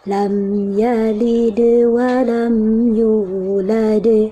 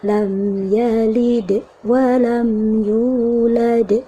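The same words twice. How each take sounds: First: The bounce flows smoothly into the next sound. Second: The bounce stops abruptly with a small break. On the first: The speaker calls it right. "Alirkan bunyinya" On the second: The speaker calls it wrong. "Yang dijeda"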